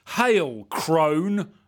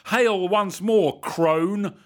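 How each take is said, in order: First: Loud, higher cry of greeting; cried out. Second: Loud, high, slow declamation; declaimed. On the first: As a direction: call out boldly. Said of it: "I cried". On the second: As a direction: proclaim it grandly and slowly. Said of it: "I declaimed". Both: A narrator's reading.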